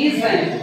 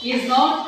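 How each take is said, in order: First: "isn't" run together as a short form; contracted pronunciation. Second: Said in the usual way. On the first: Shown as a demonstration. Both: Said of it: "উচ্চারণগুলি কিভাবে তোমরা উচ্চারণ করবা".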